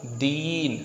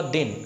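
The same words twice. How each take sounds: First: दीन with a lengthened ई; slow, held ई in दीन, shown by a teacher; long vowel. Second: दिन with the इ cut short; quick, unstretched इ in दिन, shown by a teacher; short vowel. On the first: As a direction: stretch the ई of दीन well out. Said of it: "अधिक समय लगा ना". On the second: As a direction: barely hold the इ in दिन. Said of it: "हमने इसे बहुत कम खींचा". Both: Shown as a demonstration.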